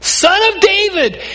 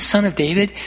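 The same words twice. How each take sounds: First: High-pitched call across a crowd; shouting blind beggar. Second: Said in the usual way. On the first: Retold or imitated. Blind man calling to Jesus over the crowd, shouting. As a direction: shout the title out to be heard. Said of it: "shouting at the top of his lungs". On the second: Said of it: "When he says".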